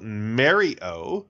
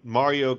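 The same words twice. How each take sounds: First: Mario said as "Mary-oh"; northern pronunciation. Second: Said in the usual way. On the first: Shown as a demonstration. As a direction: say Mario with a flat "mare" first vowel, lifting at the end. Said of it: "north of us will call it".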